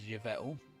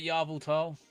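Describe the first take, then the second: First: The name begins with a 'yev' sound. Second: The name begins with a 'yar' sound. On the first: The speaker calls it right. "I think it's actually pronounced as" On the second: The speaker calls it wrong. "you got"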